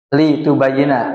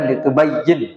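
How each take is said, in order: First: The word ends with a short a vowel. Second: The word ends on a consonant, without vowel. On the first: It expresses purpose: so that you explain. "lamnya itu li ta'lil" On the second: It expresses a command to explain. "kalau dia itu perintah itu dibaca li tubayyin"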